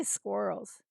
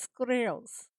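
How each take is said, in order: First: Said in the usual way. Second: Squirrels squeezed toward scrolls, slow; husband's squirrels. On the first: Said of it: "He doesn't say squirrels". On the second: Retold or imitated. Streamer imitating her husband's squirrels for chat. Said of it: "Like he's trying to say scrolls".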